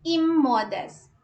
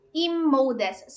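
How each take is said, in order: First: "immodest" louder and higher at the start, said slowly; stress on the first syllable. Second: "immodest" with a loud, held first syllable, said slowly; stress on the first syllable. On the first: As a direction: punch the opening of "immodest". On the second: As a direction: lean on the start of "immodest". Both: Shown as a demonstration. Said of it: "it has a stress yung E".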